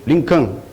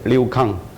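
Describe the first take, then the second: First: The first syllable sounds like 'lin', ending in n. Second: The first syllable sounds like 'liu', no n. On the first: The speaker calls it wrong. "he's trying to repeat my name. He said Lin Kang" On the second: The speaker calls it right. "the correct pronunciation is Liu Kang"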